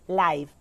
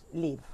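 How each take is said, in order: First: It is said with the adjective pronunciation. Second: It is said with the verb pronunciation. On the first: The word describes something happening in real time. "it is an adjective, is pronounced live" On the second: The word names the action of living somewhere. "when it is a verb, it's pronounced live"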